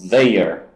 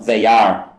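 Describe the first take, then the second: First: They and are are joined into one syllable. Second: They and are are said as separate words.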